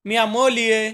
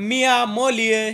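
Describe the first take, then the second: No difference in how they are said.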